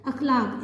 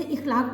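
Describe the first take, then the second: First: अखलाक said akhlaq with a short a at the start; correct pronunciation. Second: इखलाक said ikhlaq with a short i at the start; wrong pronunciation. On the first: Teacher giving students the correct akhlaq. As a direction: open the first vowel: a-khlaq. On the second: Teacher showing students the common wrong ikhlaq. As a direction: show the mistake: i-khlaq. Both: Shown as a demonstration. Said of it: "जो तलफ़ुज़ गलत है".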